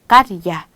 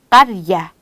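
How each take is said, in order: No difference in how they are said.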